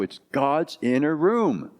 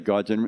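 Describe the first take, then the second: First: It is said emphatically and forcefully. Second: It is said casually and offhandedly.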